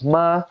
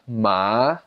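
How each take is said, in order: First: The pitch stays high and level. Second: The pitch dips down then rises. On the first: "the first tone is high pitched flat" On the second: "third tone goes down and up"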